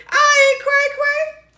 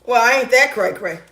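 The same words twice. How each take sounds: First: Very high, slow put-on voice; playful squeal. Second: Said in the usual way. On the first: Woman joking about her own sanity, high mock squeal. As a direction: squeak it out, drawn out.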